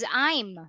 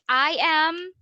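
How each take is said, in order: First: The two words merge into one syllable. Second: Two separate words are said in full. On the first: "it becomes"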